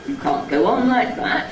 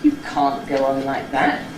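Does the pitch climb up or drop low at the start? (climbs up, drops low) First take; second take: climbs up; drops low. First: The pitch climbs up stepwise at the start. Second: The pitch jumps down low at the start. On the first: The speaker calls it wrong. "There isn't a sort of jumping up one, which there isn't a staircase up. It sounds odd" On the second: The speaker calls it right. "so you really have to jump down to it"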